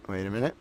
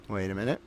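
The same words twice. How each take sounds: The two takes are said the same way.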